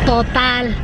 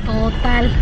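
Both takes have the same delivery.

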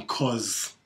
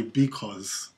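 First: Clipped slangy "'cause"; the shortened "'cause" you'd use with friends; casual 'cause. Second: "because" said in full, both syllables; careful, complete "because" for a meeting. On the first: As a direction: drop the first syllable, say just "'cause". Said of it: "you wouldn't say". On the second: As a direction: say the whole proper word "because". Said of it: "you'd say". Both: Shown as a demonstration.

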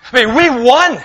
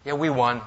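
First: Higher and louder victory cry; joyful shout of we won; triumphant shout. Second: Low, softer muttered win; deadpan quiet we won; flat quiet take. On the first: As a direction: shout it like you just won the war. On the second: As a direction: say it with no triumph at all, softer and low. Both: Shown as a demonstration. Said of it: "to shout in triumph when you win".

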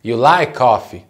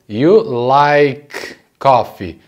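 First: "like coffee" joined on one shared K; sounds run together. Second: Very slow "like", held apart from "coffee"; words separated. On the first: Teacher letting the sounds collide for learners, "like coffee" linked. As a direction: let the K of "like" bump straight into "coffee". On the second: Teacher breaking down the sentence for learners, very slow separated words. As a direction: stretch "You like coffee" out word by word. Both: Shown as a demonstration. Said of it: "Deixa esse som se bater".

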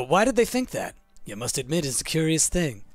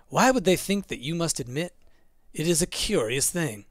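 First: "You must admit" starts a new, lower statement; corrected phrasing. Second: One long question through to "thing", no break after "that"; misread phrasing. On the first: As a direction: break after "think that" as a question. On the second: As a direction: run "think that you must admit" together as one clause. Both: Shown as a demonstration. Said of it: "Put the wrong emphasis".

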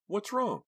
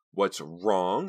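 First: High, puzzled question; ask, baffled. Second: Sharp angry echo of his question; angrily. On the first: Acted. Confused boyfriend asks. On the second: A narrator's reading. Karina repeats Vincent's question, angry. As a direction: throw his words back at him. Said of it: "she repeated angrily".

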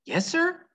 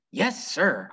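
First: Much higher, quick obedient answer; eager child reply. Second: Mild mock yell back. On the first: Acted. Opal answering the preacher, high and eager. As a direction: pipe up high like a startled girl. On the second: Opal yelling back to the preacher, mildly raised. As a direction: call back without real shouting. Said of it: "I yelled back".

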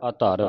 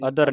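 First: ਅਧਰ said as "adhaar", long second vowel; corrected long vowel. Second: ਅਧਰ with a short second vowel; wrong short vowel. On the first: Teacher modelling for the pupil to repeat, ਅਧਰ as "adhaar". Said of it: "ਏੜ ਐੜਾ ਇਹ". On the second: Teacher showing how congregations misread, ਅਧਰ with short vowel. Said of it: "ਅਧਰ ਨਹੀਂ ਪੜਨਾ". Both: Shown as a demonstration.

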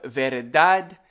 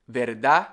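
First: Said in the usual way. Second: "verdad" ending on a stressed "dá"; dropped final D. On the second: Shown as a demonstration. Teacher showing Caribbean speech, dropped final D. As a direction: leave the last D of "verdad" silent. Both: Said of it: "We don't say the D's".

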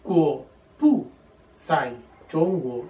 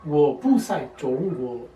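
First: Slow demo, "bu" set apart by pauses; word-by-word Mandarin. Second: Slow, joined-up Mandarin, "bu" in rising tone; second-tone "bu". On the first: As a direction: say "bu" alone, pausing before "zai". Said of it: "por regla de pronunciación sería". (mandarín pausado, con "bu" separado de "zai") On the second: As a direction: lift "bu" into second tone, straight into "zai". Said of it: "lo puse con el segundo tono". ("bu" en segundo tono, enlazado con "zai") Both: Shown as a demonstration.

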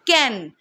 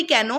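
First: কেন said the Bangladeshi way, a little lower; কেন in a Bangladeshi accent; Bangladeshi pronunciation. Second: কেন said the Kolkata way, plain and short; কেন in a Kolkata accent; Kolkata pronunciation. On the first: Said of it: "বাংলাদেশে সেটাকে বোধহয় বলা হয়". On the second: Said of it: "why এর বাংলা তো আমরা বলি". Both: Shown as a demonstration.

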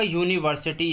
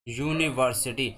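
First: Said in the usual way. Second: "यूनिवर्सिटी" slowly, part by part, opening on a clear "यू"; sound demonstration. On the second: Shown as a demonstration. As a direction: sound out "यूनिवर्सिटी" lower and slower to show the "यू". ("यूनिवर्सिटी" को धीरे-धीरे तोड़कर, "यू" साफ़ बोलते हुए) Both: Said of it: "यू का sound आ रहा है".

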